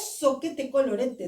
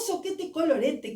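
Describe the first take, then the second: First: It is said in a sure, confident way. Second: It is said in a pleased, happy way. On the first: A plan is being made. "planeja alguma outra coisa" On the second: Something turned out well. "que bom, que bom"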